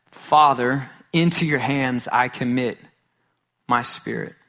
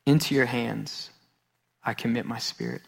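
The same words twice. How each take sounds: First: Mildly raised cry, easing off by the end. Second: Said in the usual way. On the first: Retold or imitated. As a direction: open firmly on Father, then settle. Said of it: "With a loud voice he cries".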